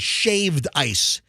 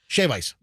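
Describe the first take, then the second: First: A d sound ends the first word. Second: No d sound ends the first word. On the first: The speaker calls it wrong. "you don't say shaved ice" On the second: The speaker calls it right. "Just shave"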